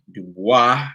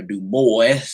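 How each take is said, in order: First: Du Bois said "doo-WAH", silent s; French-style pronunciation. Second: Put-on Du Bois said "doo-BOYS"; Anglicized pronunciation. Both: Shown as a demonstration. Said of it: "depending on where you from".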